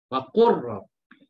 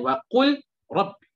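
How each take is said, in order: First: The L is merged into a doubled R. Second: The L is pronounced separately before the R. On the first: The speaker calls it right. "dibaca dengan idgham. Ya, masukkan" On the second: The speaker calls it wrong. "Bukannya wa qul rabbi"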